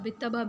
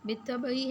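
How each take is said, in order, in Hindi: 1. शब्द अपने अंतिम कारक स्वर के बिना समाप्त होता है। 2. शब्द अपने अंतिम कारक स्वर के साथ समाप्त होता है।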